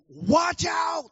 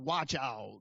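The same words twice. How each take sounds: First: It is said in a serious, urgent way. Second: It is said in a relaxed, offhand way. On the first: It is a serious warning of real danger. The speaker calls it right. "No, he's like, watch out. This is serious" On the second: It is only a mild suggestion. The speaker calls it wrong. "It's not just, oh, yeah, you know, you might want to"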